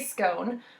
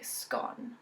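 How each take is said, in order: First: It is said in an American-sounding way. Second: It is said in an English-sounding way. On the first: "I would say scone" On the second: "English people would say scone"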